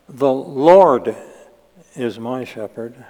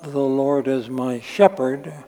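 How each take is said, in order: First: The word Lord is stressed. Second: The word Lord is not stressed. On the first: The speaker calls it right. "he would have stressed the word Lord" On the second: The speaker calls it wrong.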